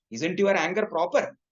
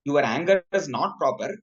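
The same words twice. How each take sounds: First: "Isn't your anger proper?" rising on "proper"; questioning intonation. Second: "Your anger is not proper" stated, falling at the end; statement intonation. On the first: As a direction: ask it as a rhetorical question, lifting the end. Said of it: "by intonation, it also means". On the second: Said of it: "it means both". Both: Shown as a demonstration.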